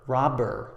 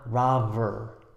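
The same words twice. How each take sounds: First: The middle b fully stops the air. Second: The middle b lets air flow through. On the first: The speaker calls it right. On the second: The speaker calls it wrong.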